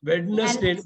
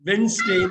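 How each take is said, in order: First: The middle d sound is clearly pronounced. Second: The middle d sound is left out. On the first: The speaker calls it wrong. "வெட்னஸ்டேன்னு படிச்சிட கூடாது" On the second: The speaker calls it right. "வென்ஸ்டே வென்ஸ்டேன்னு படிக்கணும்"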